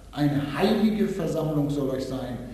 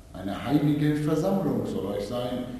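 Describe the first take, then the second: Both takes have the same delivery.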